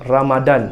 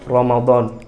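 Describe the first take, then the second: First: The 'd' is a plain d sound. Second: The 'd' is an Arabic-style dh sound. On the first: The speaker calls it right. "ejaan yang betul dalam bahasa Melayu ialah R A M A D A N" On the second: The speaker calls it wrong. "bukannya Ramadan"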